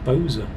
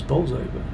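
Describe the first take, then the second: First: The name is clipped to two short syllables. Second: All three syllables of the name are pronounced. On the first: This is how locals say it. "unless you're from Bolsover, and then it's Boza" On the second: This is the standard pronunciation. "the correct pronunciation is Bolsover"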